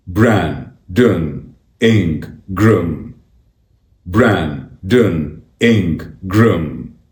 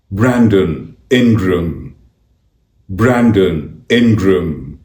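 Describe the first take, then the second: First: "Brandon Ingram" slowly split as Bran, don, In, gram; syllable by syllable. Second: Said in the usual way. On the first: Shown as a demonstration. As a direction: say "Brandon Ingram" slowly with a clear gap after each syllable. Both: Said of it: "It's pronounced".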